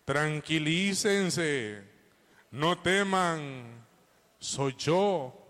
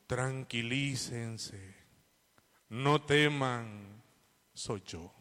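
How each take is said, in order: First: Slow and steady, a little fuller; calm reassurance, repeated. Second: Calm reassurance. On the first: Preacher repeating Jesus' words for the congregation, slow. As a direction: repeat it slowly so it sticks. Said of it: "Cómo dijo Jesús". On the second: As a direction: say it slowly as if calming frightened men. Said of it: "qué dijo Jesús". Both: Retold or imitated.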